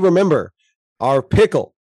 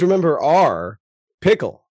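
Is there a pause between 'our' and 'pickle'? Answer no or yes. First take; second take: no; yes. First: It runs on without a pause before pickle. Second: There is a pause between our and pickle.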